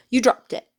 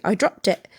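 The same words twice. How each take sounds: First: Higher, louder incredulous echo; disbelief. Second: Said in the usual way. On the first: A narrator's reading. Mister Diggory repeats the boy's words, in disbelief. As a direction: throw it back in open disbelief. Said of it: "repeated Mister Diggory in disbelief". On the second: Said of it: "said Harry".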